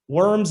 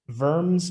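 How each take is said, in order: First: It is said with an English pronunciation. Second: It is said with a German pronunciation. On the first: "we pronounce it different in the English" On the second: "It's probably closer to like Worms"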